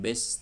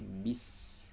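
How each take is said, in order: First: The vowel sounds like 'e', leaning toward 'a'. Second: The vowel is a clear, spread-lip 'i' sound. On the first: The speaker calls it wrong. "bukan bes" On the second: The speaker calls it right. "tapi bis"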